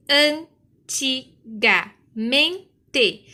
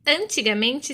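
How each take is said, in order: First: "antigamente" very slowly, an - ti - ga - men - te; five loud, separate beats for "antigamente"; split into syllables. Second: Said in the usual way. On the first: Shown as a demonstration. Teacher demonstrates five-syllable split.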